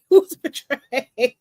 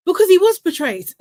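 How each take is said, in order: First: "He was betrayed" said slowly through a laugh. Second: "was" hit loud and high, insisting; emphatic. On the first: Laughs after ranting. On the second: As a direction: punch "was" hard, louder and higher. Ranting about the unfair vote. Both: Real, not acted.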